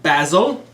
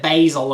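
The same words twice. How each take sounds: First: Basil is said with a British pronunciation. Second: Basil is said with an American pronunciation.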